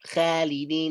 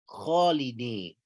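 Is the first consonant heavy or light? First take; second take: light; heavy. First: The first consonant is light, tongue back lowered. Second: The first consonant is heavy, tongue back raised. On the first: The speaker calls it wrong. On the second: The speaker calls it right.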